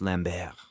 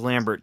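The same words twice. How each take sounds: First: The name is pronounced the French way. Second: The name is pronounced the English way. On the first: The speaker calls it right. "it's French pronunciation" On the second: The speaker calls it wrong. "I thought it was Lambert"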